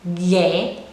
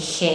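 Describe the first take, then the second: First: It starts with a strong hard g sound. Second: It starts with a soft breathy h sound. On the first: The speaker calls it right. "You produce a strong sound" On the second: The speaker calls it wrong. "You don't say he"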